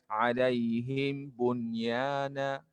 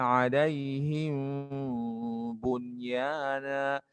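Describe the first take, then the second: First: The m is pronounced clearly and separately. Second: The m is muffled and held into the b. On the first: The speaker calls it wrong. "Jangan dibaca alaihim bunyana" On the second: The speaker calls it right. "samar-samarkan kemudian ditahan suaranya"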